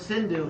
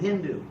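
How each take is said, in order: First: The word begins with an S sound. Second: The word begins with an H sound. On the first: This is the original name of the river. "the Persians pronounced this word Sindhu" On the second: This is how the Persians said it. "That's just how they pronounced it"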